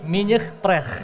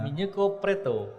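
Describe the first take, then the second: First: It is said with a French accent. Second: It is said with a Japanese accent.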